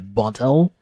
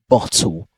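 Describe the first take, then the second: First: The middle t sounds like a soft d. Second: The middle t is a clear t sound. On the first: "like they replace with the d sound" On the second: "in British pronunciation, they replace it with a T sound"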